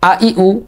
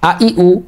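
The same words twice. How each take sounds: No difference in how they are said.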